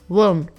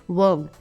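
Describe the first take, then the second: No difference in how they are said.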